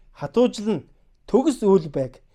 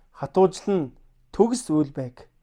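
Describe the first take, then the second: Both takes have the same delivery.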